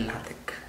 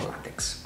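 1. La lettera finale si pronuncia come un suono k. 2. La lettera finale si pronuncia come un suono ks. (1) "è LaTeX ... ma è una chi greca" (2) "non LaTeX, perché la X non è una X"

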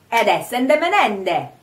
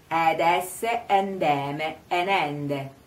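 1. La frase è detta in fretta, con le parole unite. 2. La frase è detta lentamente, articolando con cura. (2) "Sempre lento lo facciamo"

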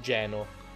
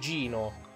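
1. La prima vocale suona come 'eh'. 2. La prima vocale suona come 'ee'. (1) "Geno non è il nome corretto" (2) "la pronuncia sarebbe Gino"

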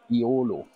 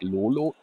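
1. Der Name beginnt mit einem Vokallaut. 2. Der Name beginnt mit einem L-Laut. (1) "Aber es heißt ja Iolo" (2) "Nicht Lolo"

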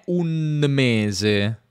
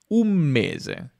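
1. La n di 'un' si pronuncia come n. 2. La n di 'un' si pronuncia come m. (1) "N più M non è un mese" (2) "ma un mese. Questa è un'assimilazione"

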